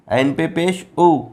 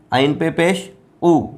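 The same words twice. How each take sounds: The two takes are said the same way.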